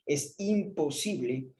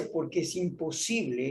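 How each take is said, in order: First: Imposible drawn out slowly, each syllable weighed; stress on imposible. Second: Said in the usual way. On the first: Shown as a demonstration. Preacher stressing imposible to his congregation. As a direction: lean hard on imposible, slowly. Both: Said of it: "y recalco esa palabra".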